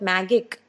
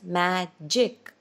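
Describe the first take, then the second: First: The middle consonant is a hard g sound. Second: The middle consonant is a soft j sound. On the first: The speaker calls it wrong. "We don't call it magic" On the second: The speaker calls it right. "It's magic"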